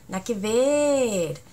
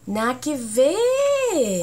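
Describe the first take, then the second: First: "Nada que ver" said slowly again, "ver" falling; slow Chilean "Nada que ver" with a long falling "ver"; drawn-out Chilean phrase. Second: "Nada que ver" said slowly, long falling "ver"; slow, dragged "Nada que ver" with a falling end; drawn-out Chilean phrase. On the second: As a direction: stretch out "Nada que ver" and let "ver" fall. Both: Shown as a demonstration. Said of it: "no pueden decir no".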